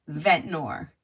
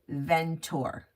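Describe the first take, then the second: First: It has an n sound before the last syllable. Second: It has no n sound before the last syllable. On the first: The speaker calls it right. "It says Ventnor. V E N T N O R" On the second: The speaker calls it wrong. "we were saying it wrong"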